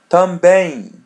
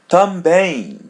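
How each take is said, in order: The two takes are said the same way.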